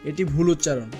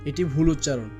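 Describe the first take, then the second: No difference in how they are said.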